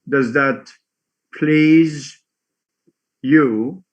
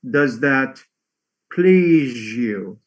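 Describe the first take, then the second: First: The z and you are kept separate. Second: The z and you merge into zh.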